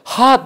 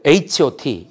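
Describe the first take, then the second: First: It is said as one short word. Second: It is read out letter by letter. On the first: The speaker calls it wrong. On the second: The speaker calls it right.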